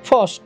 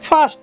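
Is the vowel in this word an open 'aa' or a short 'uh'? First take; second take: uh; aa. First: The vowel is a short 'uh' sound. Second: The vowel is an open 'aa' sound. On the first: The speaker calls it right. "ଅ ରୂପରେ ଉଚ୍ଚାରଣ ହେବ" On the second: The speaker calls it wrong. "ଆ ଆ ଉଚ୍ଚାରଣ କରିବେ, ତାହା ସମ୍ପୂର୍ଣ୍ଣ ଭୁଲ ଉଚ୍ଚାରଣ"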